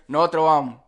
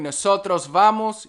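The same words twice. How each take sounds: First: The s sounds are dropped. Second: The s sounds are clearly pronounced. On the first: "you hear nosotros vamos. Very, very different" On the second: "instead of hearing nosotros vamos"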